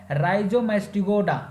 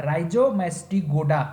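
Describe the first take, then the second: First: Said in the usual way. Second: Rhizomastigoda slowly, broken into clear parts; careful pronunciation. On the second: Shown as a demonstration. Teacher repeating the first order for students, careful pronunciation. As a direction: stretch out Rhizomastigoda piece by piece. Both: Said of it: "pronunciation पे ध्यान दीजिएगा".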